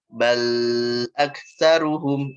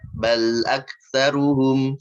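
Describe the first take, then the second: First: The sound after the consonant is drawn out long. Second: The sound after the consonant flows on briefly. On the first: The speaker calls it wrong. "Sengaja panjangin suara al-nya" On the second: The speaker calls it right. "ngalirin sedikit latihannya. Yang sesuai, yang benernya"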